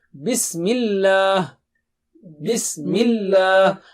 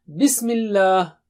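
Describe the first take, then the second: First: Bismillah with a thin, light lam. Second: Bismillah said with a heavy, thick lam; wrong take of Bismillah, lam made heavy. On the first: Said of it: "Lam is thin here". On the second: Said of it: "Don't say Bismillah". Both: Shown as a demonstration.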